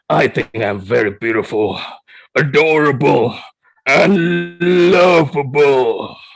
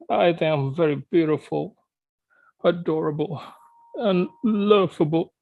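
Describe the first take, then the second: First: It is said in an angry voice. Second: It is said in a sad voice.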